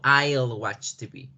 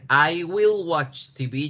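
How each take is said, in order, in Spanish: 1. 'Will' se acorta y se une a 'I'. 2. 'Will' se dice como una palabra completa separada. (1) "yo digo" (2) "en vez de decir"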